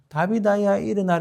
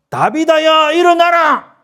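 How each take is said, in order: First: It is said quietly, without force. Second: It is shouted loudly with force.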